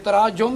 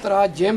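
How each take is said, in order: First: The second vowel is a u sound. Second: The second vowel is an i sound. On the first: It means stoning one another. The speaker calls it wrong. "आप फाश गलतियाँ कर रहे हैं" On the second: It is the plural of translation. The speaker calls it right. "तो तर्जमा इसकी जमा तराजिम है"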